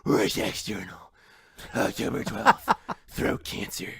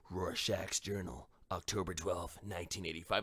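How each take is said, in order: First: Overdone throaty rasp breaking into laughs; mock bad rasp. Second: Gravel out a grim diary entry; Rorschach voice. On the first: Mocking a bad Rorschach, overdone rasp. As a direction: ham up a croaky ruined voice. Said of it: "It's not just like". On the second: Retold or imitated. Imitating Rorschach reading his journal, low rasp. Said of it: "Rorschach's raspy voice".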